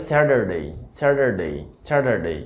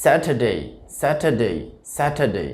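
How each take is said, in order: First: American স্যাটারডে as "SAD-er-day"; American flapped t in স্যাটারডে; American pronunciation. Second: স্যাটারডে as "SAT-uh-day", no r; correct British pronunciation. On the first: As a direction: say স্যাটারডে with t turned to d and r sounded. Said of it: "American উচ্চারণটা হবে". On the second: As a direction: model স্যাটারডে, crisp t, silent r. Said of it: "সঠিক উচ্চারণটা". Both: Shown as a demonstration.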